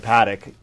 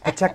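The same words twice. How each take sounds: First: The name is said with an American-style pronunciation. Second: The name is said with a French-style pronunciation. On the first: This is an acceptable local pronunciation. "Here in America, You can call it a Patek" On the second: This is the original pronunciation. "You got to act a little French"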